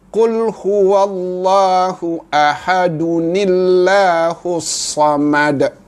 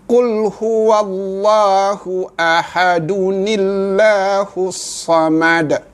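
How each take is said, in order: Both takes have the same delivery.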